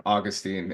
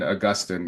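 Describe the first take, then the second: First: Put-on "Augustine" said AW-gus-teen; Luther's pronunciation. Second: "Augustine" said uh-GUS-tin; common pronunciation. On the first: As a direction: stress the first syllable of "Augustine", ending in TEEN. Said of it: "Maybe that's Luther's". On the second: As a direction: stress GUS in "Augustine", short ending. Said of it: "is for the rest of us". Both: Shown as a demonstration.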